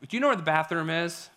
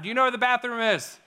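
First: It is said at normal volume. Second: It is said loudly.

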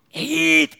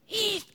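First: The name is said somewhat louder. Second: The name is said very quietly.

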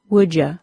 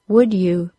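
First: The word 'you' is reduced to 'ya'. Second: The word 'you' is pronounced fully.

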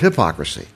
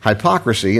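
First: It is said with the standard pronunciation. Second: It is said with a Midwestern pronunciation. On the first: The speaker calls it right. "they pronounce things differently and sometimes correctly" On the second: The speaker calls it wrong. "you're going to hear me slip"

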